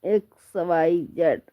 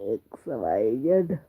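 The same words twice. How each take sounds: First: Said in the usual way. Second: Letters dropped low and slowed, played as a joke; mock deep voice. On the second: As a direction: say x वाई जेड low and slow, like a gruff teacher. (X वाई जेड को मज़ाक में भारी, धीमी आवाज़ में)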